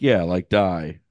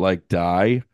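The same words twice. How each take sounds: First: "die" falling like a settled fact; matter-of-fact confirmation. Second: "die" lifted as a question. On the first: Trainer confirming the grim advice to student teacher, matter-of-fact. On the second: Student teacher checking the trainer's grim advice, questioning. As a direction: end on a rising, checking "die". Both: Retold or imitated.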